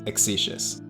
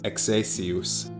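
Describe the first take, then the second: First: The name is pronounced the English way. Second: The name is pronounced the Latin way. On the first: "English is Exicius" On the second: "Latin is Exacius"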